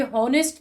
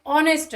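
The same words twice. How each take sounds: First: हॉनेस्ट said with a breathy h at the start; हॉनेस्ट with an audible h; wrong h sound. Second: ऑनेस्ट starting straight on the O vowel, no h; ऑनेस्ट with silent h. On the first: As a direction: voice the h in हॉनेस्ट as a mistake. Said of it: "ये ऑनेस्ट है". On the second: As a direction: open ऑनेस्ट on a clean O. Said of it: "ओ का sound आ रहा है". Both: Shown as a demonstration.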